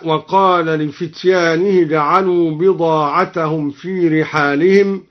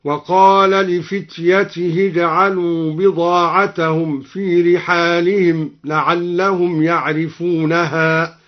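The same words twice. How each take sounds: First: Said in the usual way. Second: Slow chant, "لفتيته" said li-fityatihi; ta after ya. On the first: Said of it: "قرأ الدوري بياء". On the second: Shown as a demonstration. Reciter demonstrates al-Duri's reading, "لفتيته" as li-fityatihi. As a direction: recite slowly, short ya then ta in "لفتيته". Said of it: "مكسورة وتاء بعدها هكذا".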